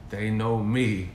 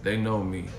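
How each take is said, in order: First: Slow, with a drawn-out "me"; emphatic repeat. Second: Said in the usual way. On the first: Real, not acted. Boasting to the man nobody knows, slow emphatic "me". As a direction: stretch out "They know me" for emphasis.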